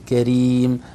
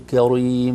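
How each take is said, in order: First: The r sound is light and thin. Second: The r sound is heavy and full-mouthed. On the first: The speaker calls it right. "نقول كريم راء مرققة" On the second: The speaker calls it wrong. "ما نقول كريم، ما ينفع ما يصلح"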